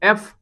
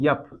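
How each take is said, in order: First: It starts directly with a plain 'e' vowel. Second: It starts with a 'y' glide before the vowel. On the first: The speaker calls it right. "बल्कि ए पढ़ा जाता है" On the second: The speaker calls it wrong. "या नहीं पढ़ा जाता"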